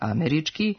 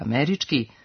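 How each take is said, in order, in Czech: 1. Vnitřní slabika nemá krátký vzestupný přízvuk. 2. Vnitřní slabika má krátký vzestupný přízvuk.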